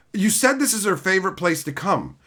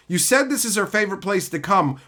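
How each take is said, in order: Both takes have the same delivery.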